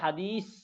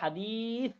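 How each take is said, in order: First: The last consonant is a hissing 's' sound. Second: The last consonant is a soft 'th' sound. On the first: The speaker calls it wrong. "কিন্তু আপনি বলেন হাদিস, ... সিন উচ্চারণ হলো।" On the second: The speaker calls it right. "উচ্চারণটা হবে হাদিস।"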